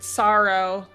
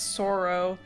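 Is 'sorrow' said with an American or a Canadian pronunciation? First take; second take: American; Canadian. First: The word uses an American pronunciation. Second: The word uses a Canadian pronunciation. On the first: "not sorrow. That's American as fuck" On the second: "the Canadian pronunciation is sorrow"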